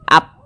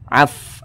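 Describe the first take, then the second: First: It ends in a stopped p sound. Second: It ends in an f with breath flowing. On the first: The speaker calls it wrong. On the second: The speaker calls it right. "ada nafas yang mengalir"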